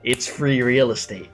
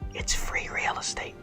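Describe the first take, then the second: First: It is said in a normal voice. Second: It is said in a whisper.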